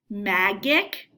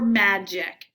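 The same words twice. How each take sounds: First: The g is said as a hard g. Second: The g is said as a j sound. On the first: The speaker calls it wrong. "If you didn't know this word, you could say magic" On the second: The speaker calls it right. "Or magic"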